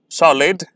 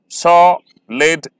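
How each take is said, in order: First: Said in the usual way. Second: "solid" stretched slowly, sol-id split; syllables drawn out. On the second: Shown as a demonstration. ("solid" धीरे-धीरे, हर syllable अलग) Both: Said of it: "इन्हें मैं slowly pronounce करूँगा".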